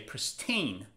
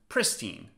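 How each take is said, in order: First: The stress is on the second syllable. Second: The stress is on the first syllable. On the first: "in American accent, the stress is on the second syllable" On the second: "in British accent, the stress is on the first syllable"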